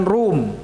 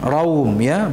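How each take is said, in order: First: Rum said as one short syllable; wrong rum. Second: Raum said ra-um, not rum. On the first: Teacher showing the wrong rum to avoid. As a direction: clip rum into one beat. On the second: Teacher contrasting Raum with rum for students. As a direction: stretch Raum into ra-um. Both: Shown as a demonstration. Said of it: "bukan rum".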